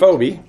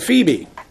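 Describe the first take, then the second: First: The name is pronounced in an odd way. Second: The name is pronounced the standard way. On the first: The speaker calls it wrong. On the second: The speaker calls it right.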